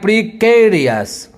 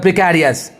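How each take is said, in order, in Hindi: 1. दूसरे अक्षर में बंद 'e' स्वर है। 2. दूसरे अक्षर में खुला 'a' स्वर है। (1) "लेकिन एग्जैक्ट ये क्या है?" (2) "ज़्यादातर आदमी इसका उच्चारण करता है प्रिकैरियस"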